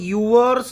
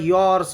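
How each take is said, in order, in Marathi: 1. त्याची सुरुवात दोन भागांच्या 'yoo-uh' आवाजाने होते. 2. त्याची सुरुवात एकाच मोकळ्या 'yaw' आवाजाने होते. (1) "याला तुम्ही युअर्स जर वाचत असाल तर चुकीचं आहे" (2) "याला यॉर्स म्हणतात"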